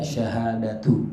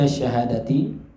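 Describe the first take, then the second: First: The word ends with a 'u' vowel. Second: The word ends with an 'i' vowel. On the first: The word is read as a predicate in the nominative case. "boleh juga dibaca sebagai marfu karena menjadi khobar" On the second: The word is read as a substitute in the genitive case. "boleh dibaca dengan jar sebagai badal"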